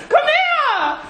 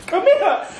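First: Higher, giggling "Come here."; laughing. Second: Said in the usual way. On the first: Real, not acted. Girlfriend calling the angry boyfriend over, laughing. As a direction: coax him while laughing.

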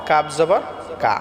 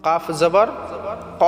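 First: কা as a thin, front "kaa"; ordinary light k in কাফ জবর কা; short clear kaf with an open "a" in কা; correct light pronunciation. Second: Heavy qaf, held on the final ক; correct heavy pronunciation. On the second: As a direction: round and back the k in কাফ জবর ক. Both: Shown as a demonstration. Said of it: "এরকম উচ্চারণ হবে".

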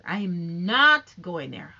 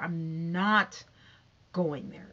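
First: "I am not going there" with "not" punched, loud and slow; emphatic refusal. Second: Said in the usual way. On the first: Real, not acted. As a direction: stress on "not", louder and slower. Refusing to gossip further, emphatic.

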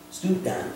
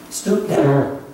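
First: Hushed whisper, much softer; whispered repeat. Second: Said in the usual way. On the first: Shown as a demonstration. Pastor to congregation about Jesus, whispering the repeat. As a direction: drop to a whisper for reverence.

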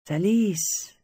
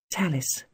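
First: "Thalys" said higher, with a slow falling tune; lovingly pronounced name. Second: Said in the usual way. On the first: Acted. Luc repeating her name back to her, savouring "Thalys". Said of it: "The way he pronounced it, it was". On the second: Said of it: "The way he pronounced it".

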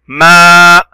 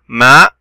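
First: "ما" with the aa held long, louder; long vowel. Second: Said in the usual way. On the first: Shown as a demonstration. Teacher showing a long sound, drawn-out "ما". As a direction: sustain the aa of "ما" on a level note. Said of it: "صوت طويل". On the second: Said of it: "ميم فتحة".

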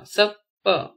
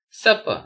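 First: "supper" split as sup, per; syllable by syllable. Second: Said in the usual way. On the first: Shown as a demonstration. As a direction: pause between the two syllables of "supper". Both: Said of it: "spell the word".

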